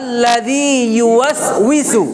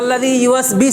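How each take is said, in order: First: The middle consonant is a w sound. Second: The middle consonant is a b sound. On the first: The speaker calls it right. "উচ্চারণটা ইংলিশে কি উই" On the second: The speaker calls it wrong. "অনেক আল্লাযী ইউওয়াসবিস হয়ে যাও"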